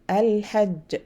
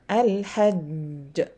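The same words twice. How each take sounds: First: The final consonant is released quickly. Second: The final consonant is held before release. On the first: The letter has no shadda. "No qalqal. Uh, no, I mean shadda. I pronounce quickly" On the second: The letter carries a shadda. "because there's a shadda"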